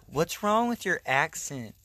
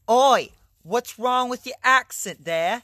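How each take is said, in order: First: Said in the usual way. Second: Loud, high, drawn-out mock British; hammed-up British heckle; mock British accent. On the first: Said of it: "then they'd be like". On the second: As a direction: bellow it in a badly faked British accent. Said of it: "making fun of a lot of British people".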